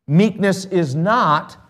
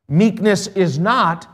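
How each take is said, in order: Both takes have the same delivery.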